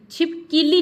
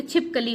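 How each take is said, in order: First: छिपकीली with high, loud -kee-; wrong form. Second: छिपकली with short a after क; correct form. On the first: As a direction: hit an ee after क in छिपकीली. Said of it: "छिपकीली नहीं होती". (गलत उच्चारण, छिपकीली में ई) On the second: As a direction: say छिपकली as chhip-ka-li. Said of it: "छिपकली होती है". (सही उच्चारण, छिपकली में अ) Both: Shown as a demonstration.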